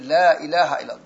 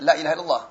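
First: The vowel in la is held long. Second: The vowel in la is cut short. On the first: There is no god but God. The speaker calls it right. "jadi panjang la ilaha illallah" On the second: The meaning is changed. The speaker calls it wrong. "bukan dibaca la ilaha illallah"

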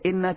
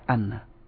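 First: The word begins with an 'i' vowel. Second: The word begins with an 'a' vowel. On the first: The speaker calls it right. "Harus baca inna" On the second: The speaker calls it wrong. "tidak bisa dibaca anna"

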